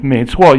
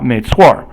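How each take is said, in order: First: The phrase ends without an r-sound. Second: The phrase ends with an r-sound.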